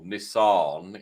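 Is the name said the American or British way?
American. It is said the American way.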